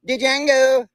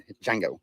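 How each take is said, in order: First: "Django" high and loud with a sounded D, "dih-jango"; joke-shout "Django" as "D-jango", D sounded; D pronounced. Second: "Django" said with no D sound, starting on J; silent D. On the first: Pretend. Joking after the silent-D rule, "Django" yelled as "dih-jango". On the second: Shown as a demonstration. Explaining the name, "Django" with the D silent. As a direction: say "Django" low and easy, D silent. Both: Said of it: "The D is silent".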